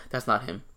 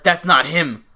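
First: Softer statement with no punctuation in it; straight-up deadpan. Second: Louder mock-indignant objection; retold mild anger. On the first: Retold or imitated. Retelling friend's blunt chat message, softer straight-up deadpan. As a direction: imitate a blunt unpunctuated text. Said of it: "it wasn't even like a period". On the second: Retelling friend's chat objection to the photo, louder mock annoyance. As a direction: imitate a friend getting kinda mad. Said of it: "Gil got kinda mad too".

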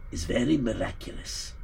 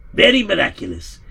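First: Said in the usual way. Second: "Very miraculous" higher and louder, weight on "Very"; emphatic repeat. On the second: A narrator's reading. Narrator stressing the miracle to the listeners, emphatic. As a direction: land "Very miraculous" with awe.

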